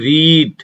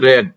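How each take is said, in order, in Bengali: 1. স্বরধ্বনিটি দীর্ঘ, 'reed' শব্দের মতো। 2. স্বরধ্বনিটি হ্রস্ব, 'red' শব্দের মতো। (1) "প্রেজেন্ট টেন্সে রিড উচ্চারণ হবে" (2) "আর পাস্ট টেন্সে উচ্চারণ হবে রেড"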